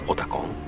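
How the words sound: It is said with a Japanese pronunciation. "the team members always says Otakon"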